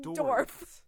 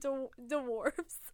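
First: The w sound after the d is dropped. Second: The w sound after the d is clear. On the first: "You're saying like there's no W" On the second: "We're saying dwarves"

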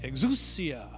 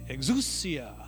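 First: The word is said playfully with swooping pitch. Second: The word is said playfully with swooping pitch.

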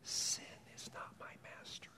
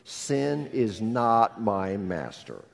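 First: It is whispered without a full voice. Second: It is spoken in a full, voiced tone. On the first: "I want you just to whisper with me" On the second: "Would you say it out loud with me?"

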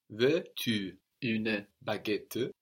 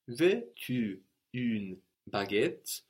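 First: Short vowels are heard after une and baguette. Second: The words une and baguette end without vowels.

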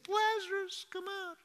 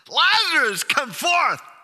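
First: It is said quietly, without shouting. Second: It is shouted in a loud voice.

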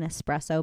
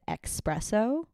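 First: The word starts with an 'es' sound. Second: The word starts with an 'ex' sound. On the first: The speaker calls it right. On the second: The speaker calls it wrong.

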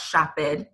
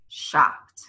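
First: The ending is said as an extra syllable. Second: The ending is said as a short T sound. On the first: The speaker calls it wrong. "it's not shopped" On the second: The speaker calls it right. "It's almost like a T sound at the end"

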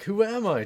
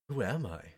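First: It is said as a confident, boastful catchphrase. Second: It is said as a doubtful, existential question.

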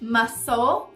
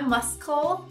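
First: The c is silent, no k sound. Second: The c is pronounced as a k sound. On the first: The speaker calls it right. "O C mudo a gente encontra na palavra músculo" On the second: The speaker calls it wrong. "Não é muscle"

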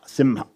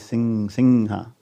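First: The middle nasal is an m sound. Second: The middle nasal is an ng sound. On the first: "Some people in South, sometimes you say simha" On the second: "in North India and especially in the Bengal region, the anushwara will be pronounced like ng"

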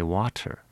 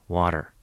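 First: It is said with a British full T sound. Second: It is said with a North American flapped T.

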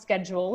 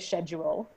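First: The word has an American pronunciation. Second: The word has a British pronunciation.

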